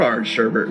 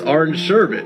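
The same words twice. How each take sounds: First: The second syllable has an R sound. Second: The second syllable has no R sound. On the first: The speaker calls it wrong. "it's not orange sherbet" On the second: The speaker calls it right. "There's no R in sherbet"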